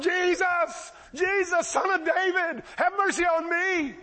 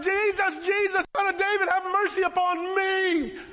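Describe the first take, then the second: First: High-pitched, drawn-out beggar's cry; hollering. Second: Hollering louder. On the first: Blind man calling to passing Jesus, hollering. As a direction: call out desperately over a crowd, pitched high. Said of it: "He starts hollering". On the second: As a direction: holler high, stretching out the final plea. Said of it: "he laughs louder". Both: Retold or imitated.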